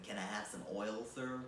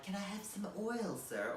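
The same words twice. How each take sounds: First: Put-on low, quick, soft American accent; offhand American-accented Oliver, pitched down. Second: Put-on British-accented begging orphan, higher and softer; small, high British urchin voice; Oliver Twist. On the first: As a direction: redo the plea in a casual American accent. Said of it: "in an American accent". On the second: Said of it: "like a big American Oliver Twist".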